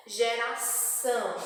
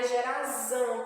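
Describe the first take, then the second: First: "Geração" pronounced with a hissed S sound for the ç. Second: "gerazão" with a voiced, buzzing Z before the ão; Z sound in gerazão. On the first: Teacher showing children how C cedilha sounds, "Geração" with S sound. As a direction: say "Geração" with ç as S, not Z. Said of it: "sempre terá som de S". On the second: Teacher showing the misspelling's result, "gerazão" with a Z sound. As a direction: say "gerazão" with Z in place of S. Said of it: "porque o S teria som de Z". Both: Shown as a demonstration.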